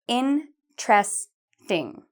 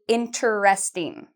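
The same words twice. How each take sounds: First: The word is said with three syllables. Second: The word is said with more than three syllables. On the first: The speaker calls it right. "It has three syllables. ... We say interesting" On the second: The speaker calls it wrong. "Many students say interesting. ... We don't say it like that"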